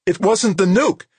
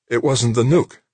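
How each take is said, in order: First: Very high, loud jubilant cry; elated high-pitched shout; exultant. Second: Raised, relieved echo, rising at the end; high but less soaring, thankful; relieved, grateful. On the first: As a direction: exult in the news, voice soaring. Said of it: "Ginny Anson's voice sounded exultant". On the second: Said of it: "sounding relieved, grateful". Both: A narrator's reading.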